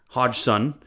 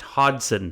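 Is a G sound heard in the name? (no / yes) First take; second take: yes; no. First: The G sound is pronounced in the middle. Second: The G sound is left out entirely. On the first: The speaker calls it wrong. "pronouncing it Ho- Ho- Hodgson" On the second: The speaker calls it right. "it's pronounced Hodgson. You don't pronounce the G"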